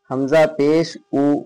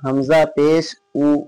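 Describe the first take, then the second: Both takes have the same delivery.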